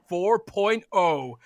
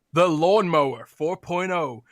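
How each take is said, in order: First: "four point oh" said very slowly, each word spaced; ad-man hammering the product name; slow emphatic repeat. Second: Said in the usual way. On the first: Shown as a demonstration. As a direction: drag out "four point oh" for effect in an American accent. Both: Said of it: "You heard that right".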